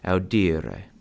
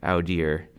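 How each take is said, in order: First: The final vowel is clearly pronounced. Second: The final vowel is silent. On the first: The speaker calls it right. "This final E in infinitives is pronounced E" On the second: The speaker calls it wrong. "pronounce it like an English word, where the last C is silent"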